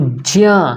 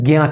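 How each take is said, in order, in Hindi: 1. j ध्वनि और नासिक्य, दोनों का उच्चारण होता है। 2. शुरू में j ध्वनि का उच्चारण नहीं होता। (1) "ज्या जा धन इया दोनों का उच्चारण हो रहा है" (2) "ज्ञा बोलने में इस जा का उच्चारण ... नहीं हो रहा है"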